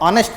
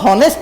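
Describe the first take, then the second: First: The word starts with a vowel sound. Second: The word starts with an h sound. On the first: The speaker calls it right. "इसको ऑनेस्ट पढ़ते हैं" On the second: The speaker calls it wrong. "इसको हॉनेस्ट नहीं पढ़ते ना"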